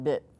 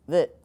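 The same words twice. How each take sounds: First: The word begins with a plain B sound. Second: The word begins with a V-like sound. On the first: The speaker calls it wrong. "not bit" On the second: The speaker calls it right. "it would be bit"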